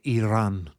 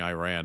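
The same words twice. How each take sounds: First: Iran is pronounced in a non-American way. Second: Iran is pronounced in an American accent.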